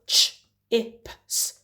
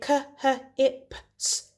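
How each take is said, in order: First: The ch is said as one single sound. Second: The c and h are sounded out separately. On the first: The speaker calls it right. "They need to recognize that this is a digraph" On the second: The speaker calls it wrong. "They wouldn't say"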